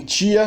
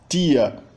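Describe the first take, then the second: First: The t sounds like 'ch', Southeastern style. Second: The t is a plain alveolar t, Northeastern style.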